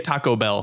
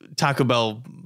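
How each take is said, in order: First: The second syllable of taco is fully said. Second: The second syllable of taco is barely said. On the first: "I don't say Taco Bell" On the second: "that's how I say it"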